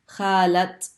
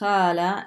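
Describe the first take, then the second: First: The word ends with a pronounced t sound. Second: The word ends in a vowel without a t sound. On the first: The word is attached to a person, as someone's aunt. "then you pronounce the ta sound" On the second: The word stands alone. "normally we just say khala"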